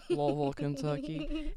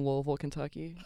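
First: Slow southern drawl on Louisville, Kentucky; southern twang. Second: Said in the usual way. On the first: Shown as a demonstration. Podcaster showing off her hometown, southern twang. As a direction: lean into the Kentucky twang, unhurried. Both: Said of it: "southern twang is, like, a little bit present".

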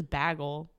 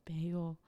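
First: "bagel" with a short a, as "baggle"; "bagel" starting like the word "bag"; mispronounced "bagel". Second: Said in the usual way. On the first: Shown as a demonstration. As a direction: say "bagel" to rhyme with "haggle". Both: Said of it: "no one says bagel".

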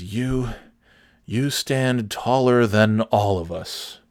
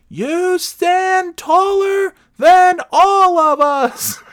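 First: Slow, lightly acted earnest compliment; solemn tribute. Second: Very high, loud, drawn-out caricature; mock yelling. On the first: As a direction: spell it out slowly as a mock tribute. Acting the kneeling man's compliment. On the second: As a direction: bellow each word slowly at someone who can't hear. Third try to deaf woman, shouted.

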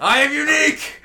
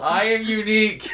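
First: High, loud hammed-up proud voice; mock grandiose. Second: Laughing self-mockery. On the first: [name] mockingly brags after being teased, hammed-up high. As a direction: ham up being special.

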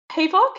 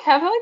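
First: "Havoc" said HAY-vock with a long A; "Havoc" as hay-vock, stress on the first syllable; mispronounced havoc. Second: "Havoc" said HAV-uck with a short A; "Havoc" with a short A, like "have"; corrected havoc. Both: Real, not acted. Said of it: "your fucking pronunciation".

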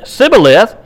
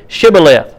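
First: Sibboleth said with a plain s instead of sh; mispronounced Sibboleth, opening on s. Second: Shibboleth said clearly with an opening sh; careful sh at the front of Shibboleth. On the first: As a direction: start Sibboleth on a hissed s, no sh. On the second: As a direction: start Shibboleth on a hushing sh sound. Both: Shown as a demonstration. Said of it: "he could not pronounce it correctly".

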